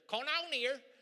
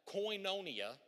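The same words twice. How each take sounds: First: It is said with a Southern US accent. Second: It is said with a standard pronunciation. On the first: "that's how we roll down here in the southern part of the U.S" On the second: "when you look it up, it's going to look like koinonia"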